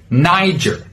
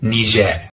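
First: An American accent with a hard final R. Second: A French-influenced local pronunciation. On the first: "with an American pronunciation, you should use a hard R sound" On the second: "from the local language, which is heavily influenced by the French"

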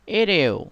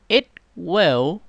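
First: It is said as one contracted form. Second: It is said as two full words.

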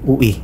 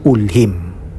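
First: It is said as oo-wee, with no l sound. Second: It is said as ool-heem, with an l sound. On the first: The speaker calls it wrong. "Hindi po ang ganun ng bigkas" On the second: The speaker calls it right. "Ito po ay binibigkas bilang Yahoo, Yahweh, Ulhim"

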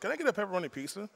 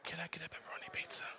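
First: It is spoken in a normal voice. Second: It is spoken in a whisper.

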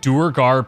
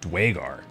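First: The name is said with an 'ur' sound. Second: The name is said with a 'wa' sound. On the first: This is how the game pronounces it. "That's not how I would have pronounced that" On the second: This is how the speaker would pronounce it. "I would have said Dwagar"

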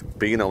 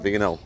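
First: The word begins with a b sound. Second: The word begins with a v sound. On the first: The speaker calls it right. "It's Bino" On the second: The speaker calls it wrong. "not Vino"

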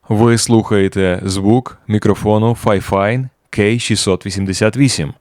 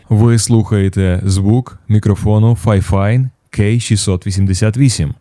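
First: The voice has de-clicking and compression applied. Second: The voice has a heavy cinematic processing preset. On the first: "включимо маус-деклікер і компресор, і послухаємо з ним" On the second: "поставимо пресет від Нейтрона 5. І пресет називається Hollywood Film Trailer"

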